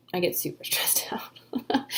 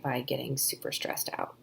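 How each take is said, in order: First: Breathy laugh breaking through the words. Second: Said in the usual way. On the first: Real, not acted. Author joking about release-day stress, laughing through it. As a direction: laugh at yourself mid-phrase. Repeats the phrase, laughs second time.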